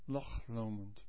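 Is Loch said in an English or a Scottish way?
Scottish. Loch ends with a rough throat sound. "The Scots say Loch, Loch Lomond, or something like it"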